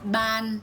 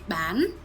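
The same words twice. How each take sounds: First: The pitch stays level through the word. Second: The pitch rises through the word. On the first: "So ban with a neutral tone" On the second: "If we put it with an uptone"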